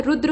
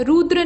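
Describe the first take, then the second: First: रुद्र with short u; correct form. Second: रुद्र with long oo; wrong form. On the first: Teacher correcting it, रुद्र with short u. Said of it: "रुद्र होता है". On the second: Teacher showing the mistake, रुद्र with long oo. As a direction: say रुद्र as "roodra". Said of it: "नहीं होता है". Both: Shown as a demonstration.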